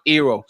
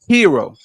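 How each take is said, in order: First: The word starts without an h sound. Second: The word starts with an h sound. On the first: The speaker calls it wrong. "No, not hero" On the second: The speaker calls it right. "I'm pronouncing the ages now"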